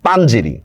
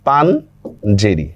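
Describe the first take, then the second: First: Said in the usual way. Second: পাঞ্জেরি stretched out very slowly, each sound separated; slow careful pronunciation. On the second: Shown as a demonstration. Teacher slowing down পাঞ্জেরি for students, very slow and careful. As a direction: spell out পাঞ্জেরি slowly for the class. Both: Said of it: "আমি একটা শব্দ বললাম".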